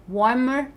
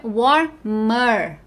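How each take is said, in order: First: Said in the usual way. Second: "warmer" in two slow beats; "warmer" said as war, pause, mer; split into syllables. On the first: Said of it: "Então, fica warmer". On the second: Shown as a demonstration. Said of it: "Warm é curtinho".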